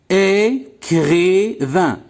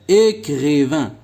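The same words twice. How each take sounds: First: Écrivain drawn out as É, cri, vain; split into syllables. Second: Said in the usual way. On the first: Shown as a demonstration. Teacher counting three syllables for pupils, split into syllables. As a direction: sound out Écrivain slowly, three separate syllables. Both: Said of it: "Trois syllabes".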